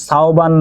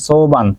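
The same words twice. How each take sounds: First: সাওবান with an "au" glide in the first syllable; name mispronounced. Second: সোবান with a plain "o" in the first syllable; corrected name. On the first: Teacher reading out a student's name correction, সাওবান said with "sau". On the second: Teacher reading out a student's name correction, সোবান said with "so". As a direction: say সোবান as "so-ban", no "au" glide. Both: Shown as a demonstration. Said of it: "নাম সাওবান না, সোবান".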